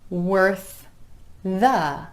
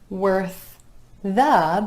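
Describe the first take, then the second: Both takes have the same delivery.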